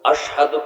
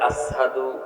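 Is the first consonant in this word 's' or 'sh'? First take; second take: sh; s. First: The first consonant is a 'sh' sound. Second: The first consonant is an 's' sound. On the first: The speaker calls it right. "আশহাদু কয় না" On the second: The speaker calls it wrong. "শিন উচ্চারণ করতে পারে না। সিন কয়"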